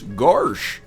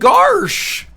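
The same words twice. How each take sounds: First: A goofy voice at a lower pitch. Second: A goofy voice at a higher pitch. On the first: "take the goofy voice" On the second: "make it a little more high-pitched"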